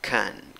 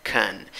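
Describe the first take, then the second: First: It is unstressed with a reduced schwa vowel. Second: It is unstressed with a reduced schwa vowel.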